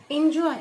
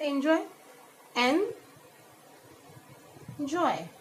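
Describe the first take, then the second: First: Said in the usual way. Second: "Enjoy" named, then broken into en and joy; long pause between the syllables of "Enjoy"; split into syllables. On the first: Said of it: "Let's see some more example". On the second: Shown as a demonstration. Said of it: "How will we pronounce it?".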